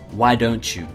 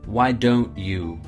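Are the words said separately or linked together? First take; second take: linked; separate. First: The words run together with linked sounds. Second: The words are said separately and clearly.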